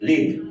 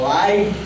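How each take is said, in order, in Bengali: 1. স্বরধ্বনিটি একটি ছোট 'ih' ধ্বনি। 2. স্বরধ্বনিটি একটি লম্বা 'eye' ধ্বনি। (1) "এখানে উচ্চারণটা হবে লিভ" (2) "নাউন অ্যাডজেক্টিভ অ্যাডভার্ব হিসেবে ব্যবহৃত হয় তখন উচ্চারণ হবে লাইভ"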